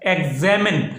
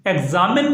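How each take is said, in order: First: "एग्जामिन" with ZEM in the middle, like eg-ZEM-in; correct pronunciation. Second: "एग्जामिन" with ZAA in the middle, like eg-ZAA-min; the faulty eg-ZAA-min for "एग्जामिन"; mispronunciation. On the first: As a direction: say "एग्जामिन" with a short e vowel in the second syllable. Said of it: "एग्जामिन नहीं पढ़ना आपने". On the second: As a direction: say "एग्जामिन" with a long aa vowel. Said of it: "नहीं पढ़ना आपने". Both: Shown as a demonstration.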